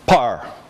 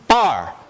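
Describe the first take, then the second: First: The first consonant has a puff of air. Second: The first consonant has no puff of air.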